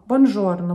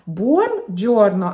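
First: The middle consonant is a 'zh' sound. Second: The middle consonant is a 'j' sound. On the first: The speaker calls it wrong. "оно почему-то часто произносится как «бонжорно»" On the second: The speaker calls it right. "итальянское «здравствуйте», «buongiorno»"

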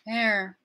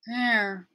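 First: The word begins with a soft, gradual start. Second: The same.

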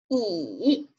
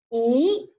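First: The pitch dips low then rises. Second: The pitch rises from middle to high. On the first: "三声读乙" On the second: "二声的时候向上扬，读一啊一"

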